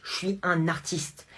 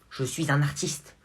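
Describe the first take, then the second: First: Je suis UN artiste, slow and weighty on "un"; pompous "un" in Je suis un artiste; stress on un. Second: "un" stressed with a rising end, slow; slow proud rise on "un". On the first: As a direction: lean hard on "un" like a proud artist. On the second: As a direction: land on "un", lift the end. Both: Acted. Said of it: "mon génie artistique".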